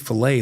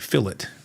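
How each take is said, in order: First: The word is said in an American way. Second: The word is said in a British way. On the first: "over there they don't say fillet" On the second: "they say fillet"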